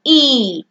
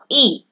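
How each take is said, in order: First: ई drawn out as a long vowel; long, held ई sound. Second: ई said as a short, quick vowel; short ई sound. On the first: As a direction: stretch ई out slowly. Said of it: "उच्चारण थोड़ा लंबा हो जाएगा". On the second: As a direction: keep ई brief, don't draw it out. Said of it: "उसका उच्चारण हमेशा छोटा होता है". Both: Shown as a demonstration.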